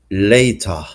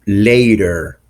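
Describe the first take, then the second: First: "later" ending in "ah", no R; British non-rhotic R. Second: "later" with a pronounced final R; American R ending. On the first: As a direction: drop the R of "later" for an ah. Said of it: "the R at the end of words isn't pronounced". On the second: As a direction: end "later" on a clear American R. American sample before British contrast. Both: Shown as a demonstration.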